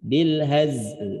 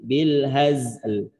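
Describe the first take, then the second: First: The word ends on a bare l sound. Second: The same.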